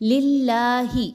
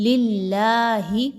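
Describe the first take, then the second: Both takes have the same delivery.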